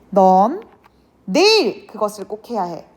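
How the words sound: The stress falls on the word 내일. It must be done tomorrow, not on another day. "바로 내일이야 라는 의미가 되겠고"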